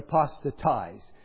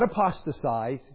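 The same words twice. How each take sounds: First: A t sound comes before the -ize ending. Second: An s sound comes before the -ize ending. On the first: The speaker calls it right. "but apostatize" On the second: The speaker calls it wrong. "Not apostatize"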